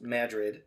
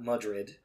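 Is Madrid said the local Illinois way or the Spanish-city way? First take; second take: Illinois way; Spanish-city way. First: It is said the local Illinois way. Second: It is said the Spanish-city way. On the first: It names the fault system's town in the Midwest. The speaker calls it right. "it is pronounced Madrid" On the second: It names the big city in Spain. The speaker calls it wrong. "It is not Madrid"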